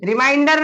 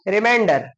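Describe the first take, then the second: First: The stressed vowel sounds like 'eye'. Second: The stressed vowel sounds like 'ay'. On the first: It means making someone remember something. The speaker calls it wrong. "नहीं" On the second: It means what is left over after dividing. The speaker calls it right. "Pronunciation should be proper"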